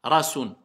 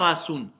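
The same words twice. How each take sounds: No difference in how they are said.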